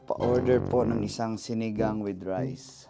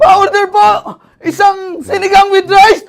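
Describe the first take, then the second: First: It is said calmly and plainly. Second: It is said in breathless panic.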